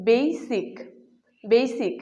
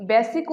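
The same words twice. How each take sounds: First: বেসিক with a long glide, 'BEI-sik'; corrected pronunciation. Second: বেসিক with a short flat vowel, 'be-sik'; common mispronunciation. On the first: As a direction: stretch the first vowel of বেসিক to 'ei'. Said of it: "এর সঠিক উচ্চারণ হবে". (বেসিক-এর শুদ্ধ উচ্চারণ, 'বেইসিক') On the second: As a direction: say বেসিক quickly without a glide. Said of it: "কিন্তু এর সঠিক উচ্চারণ". (বেসিক-এর প্রচলিত ভুল উচ্চারণ, 'বেসিক') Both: Shown as a demonstration.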